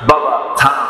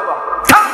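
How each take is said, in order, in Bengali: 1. নরম গলায়, আদর করে বলা। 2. কড়া গলায়, বিরক্ত হয়ে বলা। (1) "কত সুন্দর করে ঘন্টার পরে ঘন্টা কথা বলছে" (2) "এই শেষ থামের লক্ষণটা কি বলেন?"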